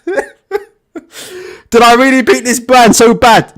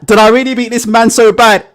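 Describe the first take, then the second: First: Slow, laughing through the words; amused, can't believe it; laughing disbelief. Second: Said in the usual way. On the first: Retold or imitated. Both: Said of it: "He's like".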